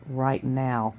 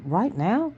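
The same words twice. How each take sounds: First: "Right now" lower and softer, falling at the end; "Right now" as a low, falling statement; confirming. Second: "Right now?" higher, rising at the end; "Right now?" as a high, rising question. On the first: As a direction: answer "Right now" with quiet finality. Mother confirms firmly. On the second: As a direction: ask "Right now?" in surprise, lifting NOW. Son questions the urgent departure. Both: Acted.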